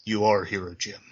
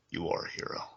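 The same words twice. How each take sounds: First: Said in the usual way. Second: Softly whispered repeat of the line. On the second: Retold or imitated. Wounded Gordon repeating his words to Batman, whispered. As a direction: breathe it out as a dying man. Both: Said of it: "he says".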